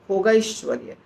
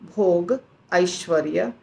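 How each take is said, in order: First: The two words are merged into one word. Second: The two words are said separately, not merged. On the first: "अगर साथ बोलेंगे तो भोगैश्वर्य" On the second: "अगर अलग अलग बोलेंगे थोड़ा फर्क पड़ेगा"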